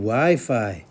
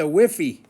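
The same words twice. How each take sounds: First: The word is pronounced in the normal way. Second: The word is pronounced in an unusual way. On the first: The speaker knows the term. The speaker calls it right. "you mean Wi-Fi" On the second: The speaker does not know the term. The speaker calls it wrong. "Grandpa doesn't know what the heck he's talking about"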